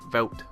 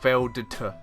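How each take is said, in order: First: The name ends in a T sound, no D. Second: The name is said with a D sound. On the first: "I'm not pronouncing the D" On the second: "Why is there a D there?"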